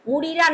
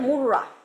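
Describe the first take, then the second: First: The two r sounds are split by a vowel. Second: The two r sounds merge into one doubled r. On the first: The speaker calls it wrong. "মুড়িরা না বলে" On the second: The speaker calls it right. "না বলে মুররা"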